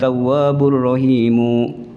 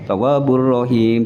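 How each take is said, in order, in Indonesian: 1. Kata terakhir berakhir dengan vokal tambahan. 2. Kata terakhir berakhir dengan konsonan mati. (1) "jangan ... ini sudah menyalahi hukum-hukum tajwid" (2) "Kalau dibaca waqaf ya tawwabur rahim"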